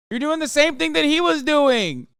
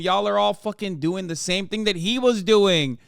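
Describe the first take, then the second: First: Louder and higher, hammering the point home; exasperated shout. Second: Said in the usual way. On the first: Real, not acted. Streamer yelling at chat over the fighter's form. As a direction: yell it at chat in disbelief.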